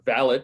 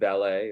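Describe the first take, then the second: First: It is said with an English pronunciation. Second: It is said with an American pronunciation.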